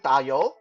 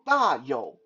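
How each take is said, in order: First: The syllables carry slightly altered tones. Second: The syllables carry their original, intended tones. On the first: It means fetch oil. "If you change the tone a little bit and change it to 打油" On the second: It means big wealth. "the way my name is supposed to be pronounced"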